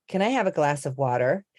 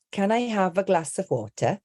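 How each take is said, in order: First: Water with an American tapped t and r; American accent. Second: Higher, crisp British delivery with a true t in water; British accent. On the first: Accent coach showing how a sentence changes by accent, American accent. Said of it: "if I was to say". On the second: Accent coach contrasting the same sentence by accent, British accent. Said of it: "the sentence does change depending". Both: Shown as a demonstration.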